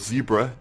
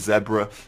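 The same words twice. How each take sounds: First: It is pronounced the American way. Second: It is pronounced the British way.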